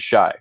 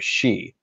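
First: The vowel sounds like 'eye'. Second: The vowel sounds like 'ee'. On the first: The speaker calls it wrong. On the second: The speaker calls it right.

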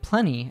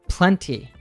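First: The T sound is dropped. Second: The T sound is clearly pronounced. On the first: "we tend to drop the T... So I would say plenty instead" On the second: "Luke actually pronounces the T sound"

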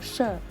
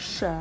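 First: The syllable is said in tone four, falling. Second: The syllable is said in tone two, rising. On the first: "เสียงสี่ไม้โท" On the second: "เสียงสองจัตวา"

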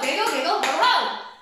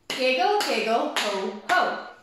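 First: It is said very fast. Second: It is said slowly.

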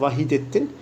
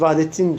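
First: The name is said in full, with the middle vowel. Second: The name is said short, without the middle vowel. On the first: This is the proper form of the name. The speaker calls it right. "Doğrusu arkadaşlar Vahidettin olması iktiza ediyor" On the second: This is the common everyday form. The speaker calls it wrong. "biz Vahdettin diyoruz"

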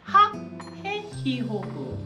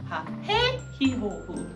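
First: The stress falls on the first syllable. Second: The stress falls on the second syllable.

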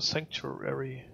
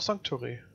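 First: The name is pronounced the English way. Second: The name is pronounced the German way.

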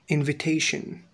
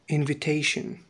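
Both takes have the same delivery.

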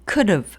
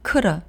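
First: The h drops but the v is kept. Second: The h and v drop, leaving only an a. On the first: "have의 h는 일단 탈락됩니다" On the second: "v도 탈락하고 a 발음만 남아요"

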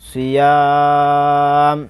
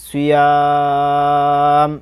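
First: The word ends abruptly on a bare 'm'. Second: The same.

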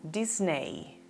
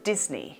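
First: The e in the ending is sounded. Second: The e in the ending is silent. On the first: The speaker calls it wrong. "Probablemente la pronunciarías como Disney" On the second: The speaker calls it right. "su correcta pronunciación es Disney ... la E no suena"

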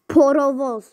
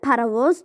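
First: The first vowel sounds like o. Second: The first vowel sounds like a. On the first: This is how the word is written. "Porovoz yazılır" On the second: This is how the word is said in everyday speech. "parovoz deyilir"

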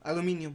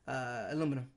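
First: It is said the way Spanish speakers say it. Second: It is said the way American speakers say it. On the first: "Spanish people say aluminium" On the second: "or at least American speakers say"

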